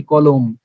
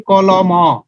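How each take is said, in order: First: কলম said as spoken, ending closed on ম with no vowel; কলম the everyday way, final ম clipped shut; কলম as in speech, no trailing অ; spoken pronunciation. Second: কলম অ with the final অ sounded separately, as in writing; কলম অ said as the written form with its trailing vowel; written spelling form. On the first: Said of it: "কিন্তু বলতেছি কি?". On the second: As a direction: read কলম অ letter by letter, ending on an open অ. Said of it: "যখন লিখতেছি". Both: Shown as a demonstration.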